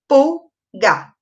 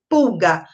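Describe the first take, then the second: First: "Pulga" broken in two, pul, then ga; split into syllables. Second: Said in the usual way. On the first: Shown as a demonstration. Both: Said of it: "E quantas sílabas?".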